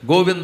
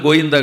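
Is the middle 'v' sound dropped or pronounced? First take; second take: pronounced; dropped. First: The middle v sound is clearly pronounced. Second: The middle v sound is dropped entirely. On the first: The speaker calls it right. "గోవింద అనాలి" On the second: The speaker calls it wrong. "గోయిందా కాదు"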